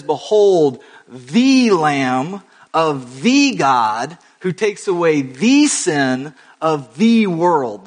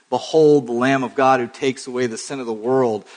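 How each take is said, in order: First: "the" before Lamb, God, sin and world drawn out slow and louder; stress on the repeated THE. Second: Said in the usual way. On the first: Shown as a demonstration. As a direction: lean hard on every "the" in "Behold the Lamb of the God". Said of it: "The definite article just keeps repeating". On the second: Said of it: "very intentional and awkward repetition".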